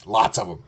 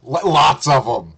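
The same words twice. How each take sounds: First: Said in the usual way. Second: LOTS punched louder and longer; emphatic repeat. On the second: Real, not acted. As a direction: hit "lots" hard and loud, stretching it.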